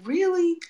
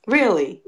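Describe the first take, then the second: First: High, incredulous Really?; Really? pitched high in mock disbelief; exasperated disbelief. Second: Louder, falling Really?; Really? dropped flat and louder in resignation; fed-up Really?. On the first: Retelling the mosquito bites, a high incredulous Really?. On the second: Retold or imitated. Retelling the mosquito bites, a louder falling resigned Really?. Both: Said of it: "And I'm like".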